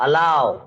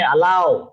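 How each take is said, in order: First: The word ends in an ow glide. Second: The word ends in an ow glide.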